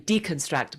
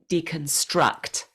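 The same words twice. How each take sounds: First: It has the stress placement of a Spanish speaker. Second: It has the stress placement of a native English speaker.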